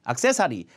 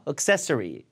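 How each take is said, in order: First: The first syllable has a full 'a' vowel. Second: The first syllable has a reduced schwa vowel. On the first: The speaker calls it wrong. "아예 이해 못해요" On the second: The speaker calls it right. "으로 죽여야 된다니까요"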